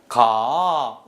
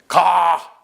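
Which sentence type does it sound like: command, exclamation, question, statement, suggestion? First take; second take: suggestion; command. First: It is said invitingly like a proposal. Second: It is said sharply like an order. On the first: It invites someone to go together. "이렇게 얘기하면 청유입니다" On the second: It orders someone to go. "이렇게 얘기하면 이건 명령이죠"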